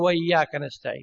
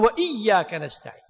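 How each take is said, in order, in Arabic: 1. الهمزة قبل 'iyyaka' تُبلع. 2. الهمزة قبل 'iyyaka' تُنطق بوضوح. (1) "ما يصير تقول وإياك نستعين، لا ما يصير تأكلها" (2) "لازم تقول وإياك نستعين، تظهر الهمزة"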